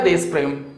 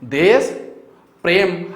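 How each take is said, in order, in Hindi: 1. दोनों शब्द बिना किसी विराम के आपस में जुड़े हुए बोले जाते हैं। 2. दोनों शब्द एक विराम से अलग किए गए हैं। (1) "उच्चारण आपने किया देश प्रेम" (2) "उच्चारण आपने क्या किया देश, फिर आपने किया प्रेम"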